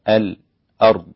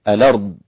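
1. يأتي بعد اللام سكت قصير صامت. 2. اللام تحمل الحركة، بلا همزة قطع. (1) "السكت على الساكن قبل الهمز" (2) "ينقل كورش، فيقول الأرض هكذا"

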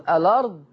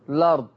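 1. الكلمة تبدأ بالمقطع al. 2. الكلمة تبدأ مباشرة بالحرف l. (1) "يجوز لي أبدأ بالألف واللام" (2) "ويجوز لي أبدأ باللام على طول"

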